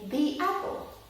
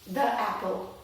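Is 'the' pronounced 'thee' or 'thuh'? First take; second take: thee; thuh. First: The word 'the' is said as 'thee'. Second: The word 'the' is said as 'thuh'. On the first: The speaker calls it right. "we say the apple" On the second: The speaker calls it wrong. "we don't normally say the apple"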